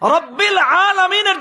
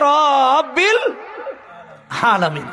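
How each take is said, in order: First: The first vowel of rabbil is short. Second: The first vowel of rabbil is drawn out. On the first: The speaker calls it right. "জায়গায়" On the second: The speaker calls it wrong. "পড়তেছে ... রাতে কয় আলিফ টান ভাই?"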